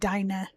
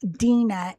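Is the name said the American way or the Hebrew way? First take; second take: American; Hebrew. First: The name is said the American way. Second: The name is said the Hebrew way. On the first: "Americans pronounce it Dinah" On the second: "her actual name is pronounced Dina in Hebrew"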